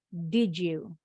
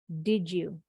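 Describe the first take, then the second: First: The d and y merge into a j sound. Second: The same.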